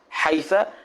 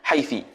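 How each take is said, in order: First: The word ends with an a vowel. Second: The word ends with an i vowel. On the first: "wal fathu" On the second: "wal kasru"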